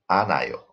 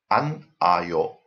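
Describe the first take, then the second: First: The n links into the next syllable. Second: The n stays separate from the next syllable. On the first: The speaker calls it right. "here the n goes up" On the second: The speaker calls it wrong.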